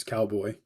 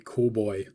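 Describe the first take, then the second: First: Said in the usual way. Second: Put-on "Cool Boy" as a Jamaican-style "cowboy"; Jamaican-accented nickname. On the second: Repeating the nickname coworkers gave him, imitated Jamaican accent. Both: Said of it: "which is cowboy".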